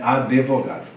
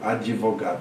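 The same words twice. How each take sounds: First: An e sound is inserted after the d. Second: An i sound is inserted after the d. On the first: Some speakers say it this way. "aí bota em vez de iodizar, fica um E" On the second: Most people say it this way. "Geralmente fala advogado. ... tem uma iodização"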